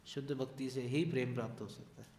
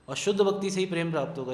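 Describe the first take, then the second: First: Said in the usual way. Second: "शुद्ध भक्ति" driven home loud, fast and higher; emphatic point. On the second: Real, not acted. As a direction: hammer the line home so they remember it. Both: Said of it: "इस चीज़ को याद रखिएगा".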